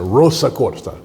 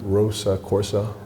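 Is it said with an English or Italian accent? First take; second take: Italian; English. First: It is said with an Italian accent. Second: It is said with a plain English accent.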